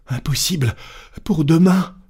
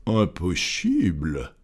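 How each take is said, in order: First: High, agitated insistence; frantic servant. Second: Composed gentleman's drawn-out voice; unruffled master. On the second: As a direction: repeat it slowly and coolly, dropping the pitch. Unruffled master echoes frantic servant. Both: Acted.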